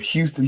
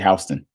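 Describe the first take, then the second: First: Houston is pronounced the way it is in Texas. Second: Houston is pronounced the way it is in Georgia. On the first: It names the city in Texas. "You got to say it right" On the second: It names the place in Georgia. "you go to Georgia, they say Houston"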